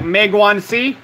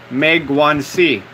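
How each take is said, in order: First: Said in the usual way. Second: Megwansi drawn out slowly, syllable by syllable; slower. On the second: Shown as a demonstration. Repeating a supposed Chinese word for listeners to hear, slower. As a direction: say Megwansi slowly and deliberately, pitched lower. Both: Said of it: "Let me say that again slower".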